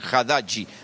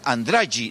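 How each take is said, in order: First: The name begins with an 'ha' sound. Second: The name begins with a nasal 'an' sound. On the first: This is the proper pronunciation of the name. The speaker calls it right. "no dicen Haddadji" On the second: This is how locals who cannot pronounce it say it. The speaker calls it wrong. "los nordestinos dicen Andragi"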